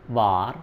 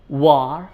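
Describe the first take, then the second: First: It begins with teeth on lip, a V sound. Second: It begins with rounded lips, a W sound. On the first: The speaker calls it wrong. "Don't say" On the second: The speaker calls it right. "You should kiss W's like this"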